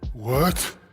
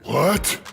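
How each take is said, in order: First: It sounds mildly surprised. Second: It sounds highly surprised.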